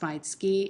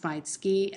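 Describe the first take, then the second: First: It is said as maitsuki. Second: It is said as maitsuki.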